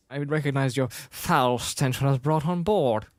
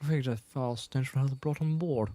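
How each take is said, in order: First: Acted English-accented line; haughty film quote, lightly English-accented; Princess Leia. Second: Softer put-on English accent; understated English-accented impression; Princess Leia. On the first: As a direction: deliver it with a hint of English accent. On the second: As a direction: quote it quietly in a mock English accent. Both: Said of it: "this is when she had an English accent".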